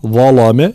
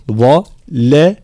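First: ظلم said wrongly; wrong zulm. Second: Slow ظلم with a heavy emphatic ظ and light lam; correct zulm. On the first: Teacher shows students the wrong ظلم. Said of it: "لا". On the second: Teacher shows students the correct ظلم. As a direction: say ظلم slowly and carefully. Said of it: "تفخيم الظاء، ترقيق اللام والميم". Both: Shown as a demonstration.

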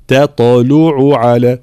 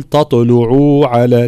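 First: Slow تطلع على with a short ain vowel; correct ain. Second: تطلع على with the ain vowel stretched; wrong ain. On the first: Teacher shows students the short ain. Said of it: "لا". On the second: Teacher shows students the wrong stretched ain. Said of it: "لا نمطط حركة العين". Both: Shown as a demonstration.

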